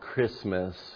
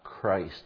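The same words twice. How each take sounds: First: The first syllable is short, without the word Christ. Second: The first syllable sounds like the word Christ. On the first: "why it's called Christmas" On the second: "and not Christmas. I wish it was pronounced that way. Because Christmas is all about Jesus Christ"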